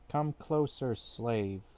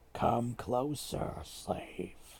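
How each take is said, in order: First: It is read in a plain, ordinary voice. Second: It is said in a put-on scary voice.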